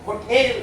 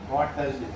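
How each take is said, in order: First: The second syllable has a longer 'tel' vowel. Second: The second syllable has a short, flat 'tal' vowel. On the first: The speaker calls it right. "ஹோட்டேல் அப்படின்னு கேட்டார்" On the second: The speaker calls it wrong. "ஹோட்டல்னு சொல்லக்கூடாது இங்கிலீஷ்ல"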